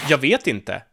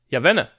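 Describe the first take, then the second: First: Every word is pronounced fully and clearly. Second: The words are shortened and run together. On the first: "the straight up I don't know" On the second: "Or more reduced"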